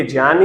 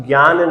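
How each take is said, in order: First: जान as "jyan", starting on j; correct pronunciation. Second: ज्ञान as "gyan", hard g; wrong pronunciation. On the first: Teacher confirming the pure form, "jyan" with j. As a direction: say जान with j, never g. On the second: Teacher ruling out the common form, "gyan" with g. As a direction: say ज्ञान with "gy" at the start. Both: Shown as a demonstration. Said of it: "ज्ञान नहीं".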